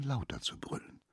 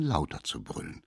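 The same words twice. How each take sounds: First: Lauter zu brüllen ganz tonlos geflüstert; flüstere lauter zu brüllen ohne Stimme; whispered. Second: Said in the usual way. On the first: A narrator's reading. Narration, repeated phrase whispered. (lauter zu brüllen leise geflüstert)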